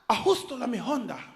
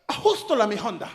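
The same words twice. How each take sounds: First: It is said at a slower pace. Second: It is said very fast.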